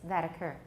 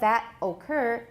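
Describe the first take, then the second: First: The t is a tap linking into occur. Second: The t is clear and the words are separate. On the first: The speaker calls it right. "we've got a T there, so it becomes a, a tap" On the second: The speaker calls it wrong. "instead of that occur"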